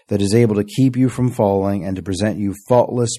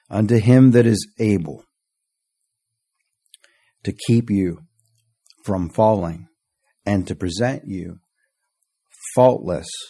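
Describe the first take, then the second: First: It is read quickly. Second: It is read slowly.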